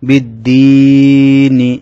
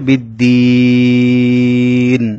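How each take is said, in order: First: The word ends with a short i vowel. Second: The word ends on the n consonant.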